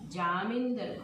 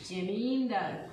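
First: The first vowel is said long. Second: The first vowel is said short. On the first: The speaker calls it wrong. "అక్కర్లేని చోట దీర్ఘాలు పెట్టడం అంటే ఇదే" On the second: The speaker calls it right. "జామీందారు కాదు జమీందార్"

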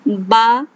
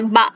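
First: The vowel has a moderate, normal length. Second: The syllable is said very quickly and clipped. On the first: The speaker calls it right. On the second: The speaker calls it wrong.

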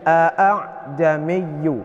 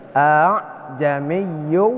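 First: Both glottal stops at the start are fully clear. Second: The second glottal stop is softened and less distinct. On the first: The speaker calls it wrong. "Jadi tidak dibaca a'jamiyyu" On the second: The speaker calls it right. "akan tapi a'jamiyyu wa arabi"

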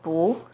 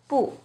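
First: The syllable is said with a rising tone. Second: The syllable is said with a falling tone. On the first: "it changes to the second tone" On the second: "When 不 is used alone, it's always the fourth tone"

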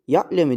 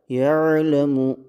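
First: The consonant is a hard, abrupt glottal stop. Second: The consonant is soft and rounded from the throat. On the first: The letter turns into a different letter. The speaker calls it wrong. "elif olur bu harf. Yani elife bu şekilde sert bir tavırla birleştirilir" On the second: The letter keeps its own identity. The speaker calls it right. "yumuşak ve yuvarlayarak ya'lemu şeklinde yapmamız lazım"

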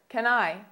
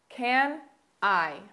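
First: It is said at a faster pace. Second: It is said at a slower pace.

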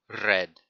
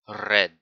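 First: The R is rolled. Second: The same.

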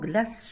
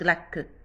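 First: The word ends with an s sound. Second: The word ends with a k sound. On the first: The speaker calls it right. "هنا نقولو غلاس" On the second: The speaker calls it wrong. "ما نقولوش غلاك"

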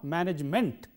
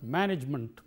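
First: The final syllable has a full vowel, 'ment'. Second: The final syllable has a reduced vowel, 'munt'. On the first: The speaker calls it wrong. "not management" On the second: The speaker calls it right. "but management, munt"

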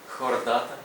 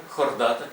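The two takes are said the same way.

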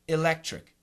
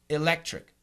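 First: The first vowel is a short i sound. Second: The same.

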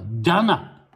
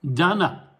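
Both takes have the same delivery.

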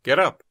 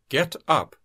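First: The two words are linked into one unit. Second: The two words are said separately and carefully.

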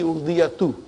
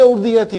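First: The word ends with an 'oo' vowel. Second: The word ends with an 'ee' vowel. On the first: The speaker calls it right. "Khabar, khabar marfu" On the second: The speaker calls it wrong. "Don't say urdiyati"

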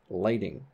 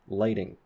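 The two takes are said the same way.

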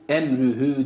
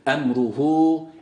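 First: The r is thin with fronted 'ü' vowels. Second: The r is thick with back 'u' vowels. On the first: The speaker calls it wrong. "emrühü değil" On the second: The speaker calls it right. "Ra kalın, he ince"

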